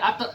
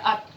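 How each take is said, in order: First: The final consonant ends with a slight echo. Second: The final consonant is swallowed without echo. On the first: The speaker calls it wrong. "tidak boleh" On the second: The speaker calls it right. "tidak boleh dipantulkan, jadi tetap dibaca"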